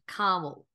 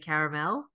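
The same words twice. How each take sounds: First: It is said with an American pronunciation. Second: It is said with an Australian pronunciation. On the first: "caramel is the American word for it" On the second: "I think the Australians say caramel"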